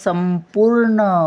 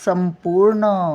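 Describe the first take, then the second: No difference in how they are said.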